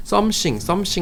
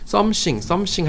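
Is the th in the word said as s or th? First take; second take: s; s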